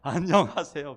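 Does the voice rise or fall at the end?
fall. The voice falls at the end like a statement.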